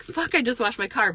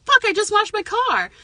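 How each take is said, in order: First: Toned-down mock complaint, raised pitch; milder realistic reaction. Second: High, loud mock outrage; acted-out exasperated outburst, pitched way up; negative reaction. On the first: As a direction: concede the annoyance without the outburst. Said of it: "But the reality is". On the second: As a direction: complain like it ruined your day. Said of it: "some people might go to the negative".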